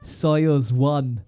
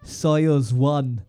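First: It is spoken in a put-on Russian accent. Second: It is spoken in a put-on Russian accent.

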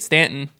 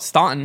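First: The name is said the Southern local way. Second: The name is said the Northern way. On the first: This is how locals say it. "we say it Stanton" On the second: This is how outsiders from the North say it. "people from the North would always call it Staunton"

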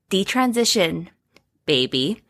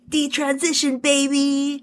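First: It is said in a plain, ordinary speaking voice. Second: It is said in a playful, put-on party voice. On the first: It is simply the book's title. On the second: It sounds like a call to party.

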